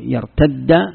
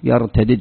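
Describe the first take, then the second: First: The two d sounds merge into one doubled d. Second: The two d sounds are pronounced separately. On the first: This is the form used by the Tamim tribe. "الإدغام، هذه لغة تميم" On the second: This is the form used by the Quraysh tribe. "يفكون الإدغام"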